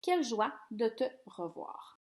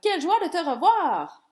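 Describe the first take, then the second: First: It is said flatly, with little emotion. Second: It is said with more lively emotion.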